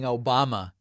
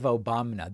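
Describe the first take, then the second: First: The name is pronounced the ordinary way. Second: The name is pronounced in an unusual way. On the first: The speaker calls it wrong. "Trump got it wrong by saying Obama" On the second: The speaker calls it right. "instead of Obama"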